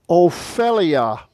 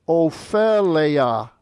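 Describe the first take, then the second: The two takes are said the same way.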